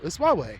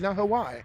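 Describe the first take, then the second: First: It does not sound like the place name Hawaii. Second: It sounds like the place name Hawaii. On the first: The speaker calls it right. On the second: The speaker calls it wrong.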